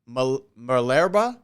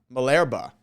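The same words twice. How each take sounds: First: Malerba slowly, rising like a question; tentative name. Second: Malerba with a falling, settled ending; settled name. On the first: Co-host giving the impressionist's name, tentative. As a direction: sound out Malerba, unsure, voice lifting at the end. Unsure reading of an unfamiliar surname. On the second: Co-host confirming the impressionist's name, settled. Repeats the surname, now settled. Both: Real, not acted.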